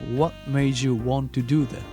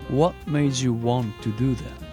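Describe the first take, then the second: No difference in how they are said.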